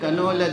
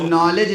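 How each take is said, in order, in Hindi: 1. शुरुआत में k उच्चारित होता है। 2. शुरुआत में k मौन है। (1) "कह रहे थे" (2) "लिखा हुआ था"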